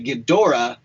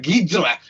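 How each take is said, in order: First: The name is said fully, every syllable clear. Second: The name is said very quickly and clipped. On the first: This is how the films say it. "more and more films say Ghidorah" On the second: This is how the Japanese actors say it. "it's almost so quick. It's neither"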